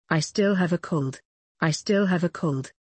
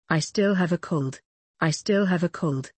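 Both takes have the same delivery.

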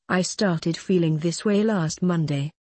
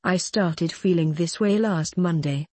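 The two takes are said the same way.

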